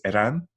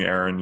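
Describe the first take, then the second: First: The name is said the original native way. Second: The name is said the anglicized English way. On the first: This is the speaker's real name. "It's Eran, but like nobody can pronounce it" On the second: This is the easy version offered to others. "just call me Aaron"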